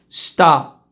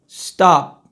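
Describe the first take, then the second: No difference in how they are said.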